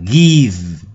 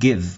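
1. Nguyên âm này dài, kéo ra. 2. Nguyên âm này ngắn, đọc gọn. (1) "Các bạn đừng đọc thành y dài, nó dài hẳn ra là give" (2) "nó là âm y ngắn. Give, give, nó ngắn thôi"

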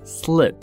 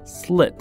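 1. 这个元音要非常短促。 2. 这个元音要非常短促。

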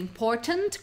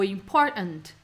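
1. O T do meio é pronunciado claramente. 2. O T do meio vira um glottal stop. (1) "com o T" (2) "Dá pra fazer um glottal, um glottal stop ali"

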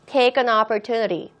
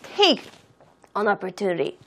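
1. 단어들을 부드럽게 이어서 말해요. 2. 단어들을 따로따로 말해요. 덜 이어져요.

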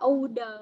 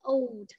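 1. Âm d cuối được đọc thành một âm tiết riêng. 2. Âm d cuối được đọc nhẹ, trong một âm tiết. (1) "có đọc là OD không? Không" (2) "con chỉ là old, nhẹ thôi"

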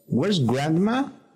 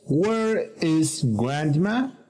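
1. Where y is se unen en una sola sílaba. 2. Where y is se dicen como palabras separadas.

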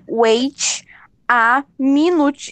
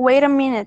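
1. Cada palavra é dita separadamente, com um t claro. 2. As palavras se juntam, com um t batido. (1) "tu não vai falar assim" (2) "tudo junto"

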